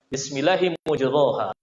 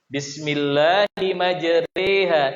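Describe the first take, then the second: First: The vowel after r is a full a. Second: The vowel after r leans toward e. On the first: This is the original, ordinary reading. "asalnya di situ dibaca bismillahi mujroha" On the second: This is the special reading of one transmission. "dibaca tipis"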